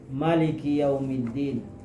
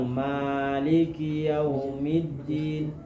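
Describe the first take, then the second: First: The vowel after the m is short. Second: The vowel after the m is long. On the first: "kada pakai panjang mimnya, pendek" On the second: "Kalau kita panjang"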